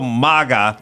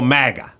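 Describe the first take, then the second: First: The first syllable has a different vowel from 'bag'. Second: The first syllable sounds like 'mag' in 'bag'. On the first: The speaker calls it wrong. "I don't go MAGA" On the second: The speaker calls it right. "you just go Mag. So I see it on a hat, and I go MAGA"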